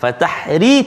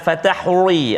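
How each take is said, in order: First: The r sound is light and thin. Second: The r sound is heavy and thick. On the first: The speaker calls it right. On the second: The speaker calls it wrong. "Jangan fatahri, ada setengah baca tu"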